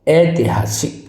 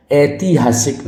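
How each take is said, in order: First: ऐतिहासिक with a short "ti"; careful short middle vowel in ऐतिहासिक; correct pronunciation shown. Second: ऐतिहासिक with a drawn-out "tee" in the middle; stretched second syllable in ऐतिहासिक; wrong pronunciation shown. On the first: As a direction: say ऐतिहासिक as "ai-ti-haasik". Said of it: "ये बिल्कुल correct है". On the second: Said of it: "नहीं होता". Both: Shown as a demonstration.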